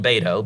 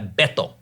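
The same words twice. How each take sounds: First: The name is said with an English pronunciation. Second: The name is said with a Spanish pronunciation. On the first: "I call him Beto because I'm sorry"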